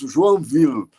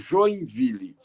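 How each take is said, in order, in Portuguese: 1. O nome é falado com pronúncia francesa. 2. O nome é falado com pronúncia do português brasileiro.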